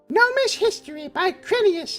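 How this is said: It is read in a put-on gnome voice. "that doesn't sound like a gnome"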